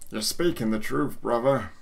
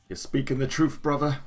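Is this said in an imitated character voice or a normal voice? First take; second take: imitated; normal. First: It is said in an imitated character voice. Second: It is said in the speaker's normal voice.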